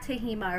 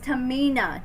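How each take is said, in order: First: The middle consonant is an H sound. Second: The middle consonant is an N sound. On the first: The speaker calls it wrong. "not Tahima or whatever, however I was saying it" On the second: The speaker calls it right. "It's Tamina"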